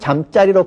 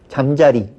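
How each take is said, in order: First: The second syllable starts with a tensed jj sound. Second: The second syllable starts with a plain j sound. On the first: It means a place to sleep. "이때 경음화가 되는 것은 이유 있는 경음화죠" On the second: It means the insect, a dragonfly. "그 곤충을 얘기하죠"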